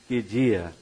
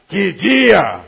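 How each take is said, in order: First: It is said in a dismayed, unhappy tone. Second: It is said in a delighted, happy tone. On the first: The day went badly. "O seu time perde... Para uns é uma coisa negativa" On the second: The day went wonderfully. "O seu time ganha, para outros é algo muito positivo"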